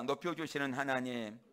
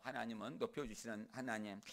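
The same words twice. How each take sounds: First: Loud, measured line for repeating; call for repetition. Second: Said in the usual way. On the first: Shown as a demonstration. Preacher leading the congregation to repeat after him, loud call. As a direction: lead the congregation in it, firmly. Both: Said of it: "따라합니다".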